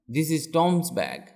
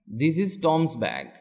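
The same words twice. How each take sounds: The two takes are said the same way.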